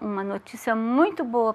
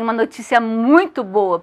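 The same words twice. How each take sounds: First: It is said in a flat, gloomy manner. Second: It is said in a bright, cheerful manner. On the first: The news does not seem really good. The speaker calls it wrong. "Vocês acreditam que essa notícia realmente é boa? Não, olha a minha expressão" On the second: The news really is good. The speaker calls it right. "Se fosse boa, eu chegaria assim"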